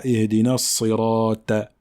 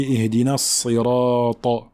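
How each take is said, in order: First: "sirata" ending in a light, front "ta"; thin Ta, wrong. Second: "sirata" ending in a heavy, dark "ta"; emphatic Ta. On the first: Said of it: "et non pas". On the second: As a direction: darken the final "ta" of "sirata". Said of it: "Il faut bien emphatiser le ta". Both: Shown as a demonstration.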